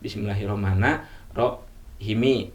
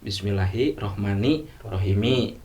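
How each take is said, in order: First: The first ends in a, the second in i. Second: Both final words end in an i vowel. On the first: "atau sebaliknya" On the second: "bisa kasrah dua-duanya"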